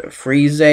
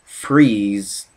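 First: "frieze" said in full as /friz/, ending on a clear z; "frieze" restarted and said fully, z sound included; corrected frieze. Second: "frieze" clipped short as /fri/, the final z dropped; "frieze" stopped early, no z sound; cut-off frieze. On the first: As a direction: rhymes with "breeze", finish the z. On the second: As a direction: start "frieze" and break off before the z. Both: Shown as a demonstration.

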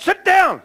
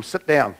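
First: Sudden very high, loud shout; explosive re-enacted order; shouted command. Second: Said in the usual way. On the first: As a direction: bellow it with full authority. Replays his command to show power.

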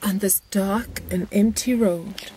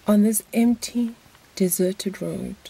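First: Slow, hushed mock-thriller whisper; spooky whisper. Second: Said in the usual way. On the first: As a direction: whisper it like the opening of a horror film. Spooky mock narration of the road.

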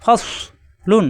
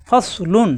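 First: ফসলুন drawn out very slowly, joining ফস into one syllable; slow drawn demo. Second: Said in the usual way. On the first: Shown as a demonstration. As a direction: stretch ফসলুন so the joined letters are clear. (খুব ধীরে টেনে ফসলুন) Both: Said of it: "দুই অক্ষর মিলে এক শব্দে উচ্চারণ হবে".

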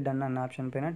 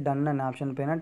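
No difference in how they are said.

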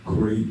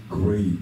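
The two takes are said the same way.

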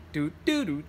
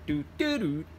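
No difference in how they are said.

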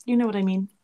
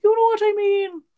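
First: Said in the usual way. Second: Much higher, much louder playful squeal; squealing repeat. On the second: Acted. Repeating her line to viewers as a loud high squeal. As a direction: squeal it like an excited teen.

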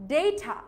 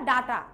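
First: ডেটা as DAY-tha, with a puff on the t; aspirated English t. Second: ডাটা as daa-taa, with a long "aa"; common mispronunciation. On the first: Teacher answers what we should say, ডেটা as DAY-tha. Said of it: "ঠ এর মতো উচ্চারণ হয়". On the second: Teacher voices what we usually say, ডাটা as daa-taa. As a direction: say ডাটা the Bengali way, hard unaspirated t. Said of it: "এটাকে কি বলি আমরা?". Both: Shown as a demonstration.

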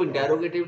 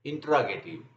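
First: इंटेरोगेटिव with every middle syllable sounded; unreduced British-style इंटेरोगेटिव; British pronunciation. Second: इंट्रागेटिव, "tero" shortened to "tra"; American-style इंट्रागेटिव, middle vowel dropped; American pronunciation. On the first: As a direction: read इंटेरोगेटिव in full, "te-ro" in the middle. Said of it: "इंटेरोगेटिव नहीं पढ़ेंगे". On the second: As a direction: read इंट्रागेटिव with the American contraction. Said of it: "American language में बोलेंगे". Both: Shown as a demonstration.

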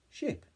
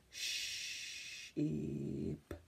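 First: Said in the usual way. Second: "Ship" split into its sounds, whispered; sounded out. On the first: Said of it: "so my turn". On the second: Shown as a demonstration. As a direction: stretch "Ship" slowly, sound by sound. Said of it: "My turn".

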